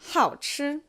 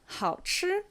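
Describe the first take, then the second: First: The first syllable has a sharp falling tone. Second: The first syllable has a low dipping tone. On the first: Someone is gluttonous. "if we have a fourth tone on it" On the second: The food is tasty. "third tone, first tone"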